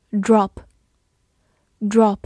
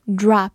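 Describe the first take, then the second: First: "Drop" with a short rounded O, said twice. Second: "drop" with an open "ah" vowel; American pronunciation. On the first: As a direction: say "Drop" with the British short O, pausing between repeats. (“Drop”读短音“哦”，中间停顿) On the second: (美式“drop”，开口读成“啊”音) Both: Shown as a demonstration. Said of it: "美式发音drop".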